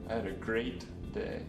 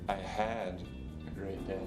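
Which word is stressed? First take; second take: great; had. First: The stress is on the word "great". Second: The stress is on the word "had". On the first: The day really was great. "The third time, I stressed the word great" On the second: The good day was cut short by something. "The second time, I put the stress on had"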